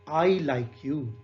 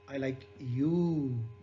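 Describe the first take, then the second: First: The stress is on the word I. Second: The stress is on the word you. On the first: "in the first sentence, the stress is on I" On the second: "And in third"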